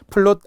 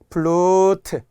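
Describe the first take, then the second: First: The word ends in a final consonant. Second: The word ends in an added vowel. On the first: The speaker calls it wrong. "플룻 안 돼요" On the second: The speaker calls it right. "이렇게 발음을 생각하면서"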